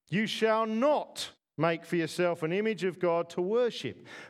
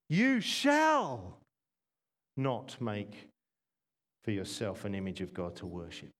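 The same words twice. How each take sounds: First: The stress falls on the word not. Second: The stress falls on the word shall.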